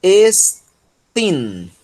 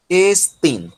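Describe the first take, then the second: First: Estin, higher and falling; word demo. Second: Estin repeated, shorter; repeat of the word. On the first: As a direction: present Estin clearly. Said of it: "vai formar tin". (Estin modelado) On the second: (Estin repetido) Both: Shown as a demonstration.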